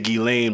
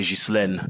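First: The name is pronounced the American English way. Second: The name is pronounced the French way. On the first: This is how others, Americans, say the name. "They say Ghislaine" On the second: This is how the speaker, a French speaker, says the name. "but I say Ghislaine"

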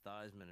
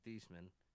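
First: The name is said to rhyme with Heisman. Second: The name is said not rhyming with Heisman. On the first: The name is changed to echo an award. "if you told people your name was Theismann" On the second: This is the name's original pronunciation. "instead of Theismann"

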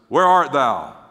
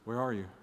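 First: It is said in a strong, stern, demanding voice. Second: It is said in a soft, warm, inviting voice. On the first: God is confronting them in anger. The speaker calls it wrong. "With this strong demonstrative voice. I don't think it went that way" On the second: God is lovingly inviting them to talk. The speaker calls it right. "The point is the relational part of saying"

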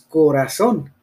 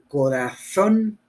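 First: The z is said like an s. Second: The z is said like English th.

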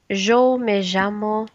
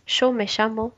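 First: The 'll' sounds like a 'y'. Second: The 'll' sounds like 'sh'.

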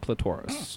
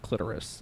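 First: It is said with the British pronunciation. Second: It is said with the American pronunciation. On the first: "In England, it would be the clitoris" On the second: "In the United States, I believe it's the clitoris"

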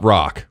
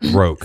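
First: The vowel is short, as in 'rock'. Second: The vowel is long, as in 'rope'. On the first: The speaker calls it wrong. "not Rock" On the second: The speaker calls it right.

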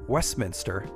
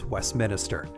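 First: The word is said without extra sounds. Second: The word is said with an extra sound added. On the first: The speaker calls it right. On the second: The speaker calls it wrong.

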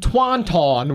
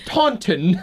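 First: The word is said in a plain, everyday way. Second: The word is said in a stiff, posh way. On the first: The speaker calls it wrong. "which is how I originally thought to pronounce it" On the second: The speaker calls it right. "you have to say it like there's a stick up your ass"

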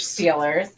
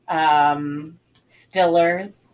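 First: The first vowel is long, like in steel. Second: The first vowel is short, like in still. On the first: "Like Steelers" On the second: "Stillers. The Pittsburgh Stillers"

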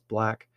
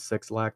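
First: The name is said as one syllable. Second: The name is said as two syllables. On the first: The speaker calls it right. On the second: The speaker calls it wrong. "you guys call him [name]. That's not how you say it"

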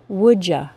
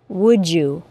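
First: You is reduced to a casual ya. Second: The d and y blend into j. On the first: "as an informal contraction" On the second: "with the assimilated CH sound and J sound"

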